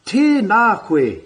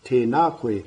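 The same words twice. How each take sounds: First: "Tēnā koe" pitched high and slow; higher pitch greeting. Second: "tēnā koe" dropped low and soft; lower pitch greeting. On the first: Teacher showing intonation change, high and slow. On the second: Teacher showing intonation change, low and soft. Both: Shown as a demonstration. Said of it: "the lowering and the, the higher pitch".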